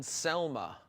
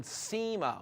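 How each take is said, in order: First: "Selma" said as SEL-muh with a clear L; misspelling Sema. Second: "sema" said SEE-muh with no L; correct name Sema. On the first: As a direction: read "Selma" like the woman's name, SEL-muh. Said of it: "misspelled sema". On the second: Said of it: "someone corrected him". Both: Retold or imitated.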